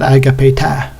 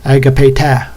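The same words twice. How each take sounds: No difference in how they are said.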